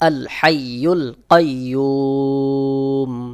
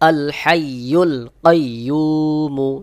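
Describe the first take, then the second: First: It ends on m after a long held vowel. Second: It ends with a short vowel after m. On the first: The reader stops at this word. "তিন আলিফ টান দিতে হবে" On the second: The reading continues without a stop. "মিমের উপরে পেশ রয়েছে"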